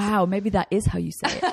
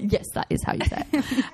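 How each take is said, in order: First: Amused, half-laughing aside; light laugh. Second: Higher, laughing put-on certainty; laughing mock agreement. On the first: Guest laughing at the American accent joke. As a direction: chuckle through it, playing along. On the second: Guest jokingly claiming her pronunciation, laughing. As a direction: grin and overplay the confidence. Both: Real, not acted. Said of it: "is what every American thinks".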